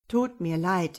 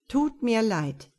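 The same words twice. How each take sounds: First: Brushing her off with a crooked smile; wry smile. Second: Flat repeated line, slow; monotone. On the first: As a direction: smile it away, a touch smug. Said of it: "wies er sie schief lächelnd ab". (schief lächelnd abwimmeln) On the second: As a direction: drone the same phrase slowly, unmoved. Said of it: "wiederholte er monoton". (monoton und langsam wiederholt) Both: A narrator's reading.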